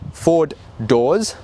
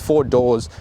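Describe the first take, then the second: First: Each word is articulated clearly and separately. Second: The two words run together indistinctly. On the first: The speaker calls it right. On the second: The speaker calls it wrong.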